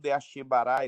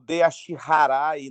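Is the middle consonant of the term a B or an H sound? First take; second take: B; H. First: The middle consonant is a B sound. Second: The middle consonant is an H sound. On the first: This is how some people say it in Brazil. The speaker calls it wrong. "não tem esse B" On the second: This is how it is said in Japan. The speaker calls it right. "lá é Deashiharai mesmo"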